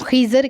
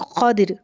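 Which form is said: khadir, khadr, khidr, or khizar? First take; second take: khizar; khadir. First: An i vowel, then an a before r. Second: An a vowel, then an i before r. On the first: "ख़ा के नीचे ज़ेर और दौद के ऊपर ज़बर" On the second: "ख़ा के ऊपर ज़बर और दौद के नीचे ज़ेर"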